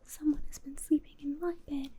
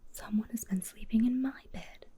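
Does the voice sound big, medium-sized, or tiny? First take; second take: tiny; medium-sized. First: It is said in a wee little voice. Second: It is said in a middle-sized voice.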